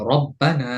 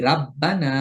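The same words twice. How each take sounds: First: রব্বানা with a thick, full র and short open vowel; heavy ra. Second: রাব্বানা with a light র and drawn-out রা; wrong thin ra. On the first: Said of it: "যেমন এই র এর উপরে জবর আছে". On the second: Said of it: "এটা ভুল উচ্চারণ". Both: Shown as a demonstration.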